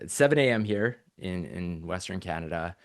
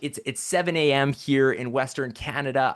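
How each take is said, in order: First: It sounds sarcastic and reluctant. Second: It sounds genuinely excited and enthusiastic. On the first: The speaker does not really want to be there. "it's almost sarcastic, like I don't want to" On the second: The speaker is truly glad to be there. "I am genuinely excited to be here"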